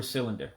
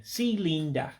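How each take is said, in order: First: Said in the usual way. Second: Igbo accent. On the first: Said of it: "for cylinder". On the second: Shown as a demonstration. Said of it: "say it with sort of an accent".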